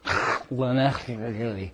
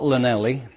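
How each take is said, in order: First: The double L comes from the throat. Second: The double L is a plain L sound. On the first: The speaker calls it right. "it comes from the back of the throat" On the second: The speaker calls it wrong. "the pronunciation of which is not Llanelli"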